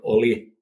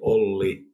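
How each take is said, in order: First: The L sound is kept short. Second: The L sound is held long. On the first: The speaker calls it wrong. "not Oli" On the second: The speaker calls it right. "You have to say Olli"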